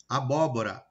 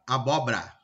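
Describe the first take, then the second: First: Said in the usual way. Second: "abóbora" squeezed to "abobra"; dropped-sound mispronunciation. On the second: Shown as a demonstration. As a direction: say "abóbora" without its second o, as "abobra". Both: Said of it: "omitir fonemas, principalmente na hora de falar".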